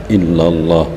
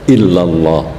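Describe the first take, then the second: The two takes are said the same way.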